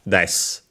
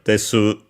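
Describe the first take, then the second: First: The final u vowel is dropped entirely. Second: The final u vowel is clearly pronounced. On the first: "but more often than not uh, uh, it's uh" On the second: "sometimes you will uh, hear it as uh"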